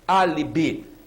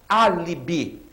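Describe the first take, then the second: No difference in how they are said.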